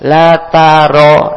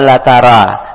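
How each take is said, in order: First: The r is heavy with an o-like vowel. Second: The r is light with a clear a vowel. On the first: The speaker calls it right. "ro tebal ... tapi la taro ... Huruf tebal dibaca o" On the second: The speaker calls it wrong. "Jangan la tara"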